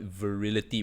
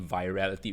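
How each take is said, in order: First: The second syllable sounds like 'ill'. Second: The second syllable sounds like 'al'. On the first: The speaker calls it wrong. "I used to pronounce the word wrongly. I used to call it virility" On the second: The speaker calls it right. "but it's actually virality"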